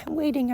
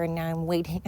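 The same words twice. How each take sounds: First: Laughing. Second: Said in the usual way. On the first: Real, not acted.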